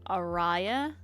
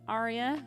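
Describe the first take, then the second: First: The middle syllable sounds like 'rye'. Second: The middle syllable sounds like 'ree'. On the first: This is the speaker's own habitual reading of the name. "But I always pronounced it Araya" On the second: This is how the name is normally said. "just like the person in our chat"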